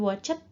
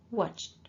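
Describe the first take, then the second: First: The e is voiced as an extra syllable. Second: The ch runs straight into a final d. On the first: The speaker calls it wrong. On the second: The speaker calls it right.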